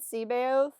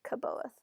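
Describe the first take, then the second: First: The name begins with a soft S sound. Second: The name begins with a hard K sound. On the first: "I always said Seabaoth" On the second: "a lot of people pronounce it as a hard C"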